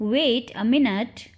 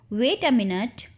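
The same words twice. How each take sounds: First: Measured, slowed-down phrase; slow model repeat. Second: Said in the usual way. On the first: Shown as a demonstration. Teacher repeats the phrase for learners, slowly. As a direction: say it slowly so learners can follow.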